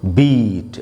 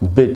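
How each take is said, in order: First: The vowel is long, like in beat. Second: The vowel is short, like in bit. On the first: The speaker calls it wrong. "इसको बीट ऐसे नहीं पढ़ना है" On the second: The speaker calls it right. "छोटी ई का sound है"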